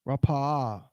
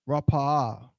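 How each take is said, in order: No difference in how they are said.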